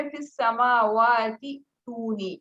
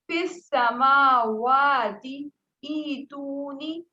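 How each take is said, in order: First: فی السماواتی تونی recited slowly, the words run together; joined recitation. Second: Slow recited فی السماواتی ایتونی, vowels drawn out; Quranic recitation. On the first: Teacher recites the joined reading for the student, slowly. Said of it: "وصل کی صورت میں". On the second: Teacher recites the verse for the student, slow and melodic. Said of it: "جیسے کیسے؟". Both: Shown as a demonstration.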